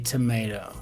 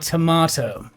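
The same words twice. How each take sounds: First: Tomato is said with an American-style pronunciation. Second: Tomato is said with a British-style pronunciation.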